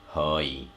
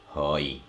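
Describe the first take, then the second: First: The word starts with an H sound. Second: The word starts with an H sound.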